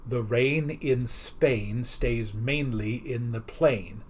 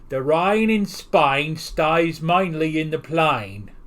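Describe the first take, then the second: First: It is spoken in a standard English accent. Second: It is spoken in a heavy Cockney accent. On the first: The speaker calls it right. "he tries to get her to say" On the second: The speaker calls it wrong. "which in her accent comes out"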